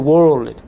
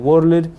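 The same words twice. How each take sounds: First: It is said with an American accent. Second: It is said with an Ethiopian accent. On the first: The speaker calls it right. "it was very difficult for me to learn to say world" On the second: The speaker calls it wrong. "myself and many of Ethiopians, we pronounce, for example, world"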